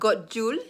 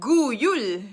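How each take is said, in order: First: The second word starts with an English j sound. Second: The second word starts with a y sound. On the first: The speaker calls it wrong. "It's not Godjul" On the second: The speaker calls it right. "It's pronounced as Y, like Yul"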